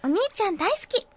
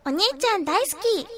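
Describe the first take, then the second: First: Put-on high, sweet anime girl voice with a rise; second try at a cute anime heroine. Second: Put-on high, sweet anime girl voice; high cute anime girl. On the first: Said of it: "ちょっと違うよね". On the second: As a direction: coo it like a cute anime heroine. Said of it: "アニメ声って可愛いじゃないですか". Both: Shown as a demonstration.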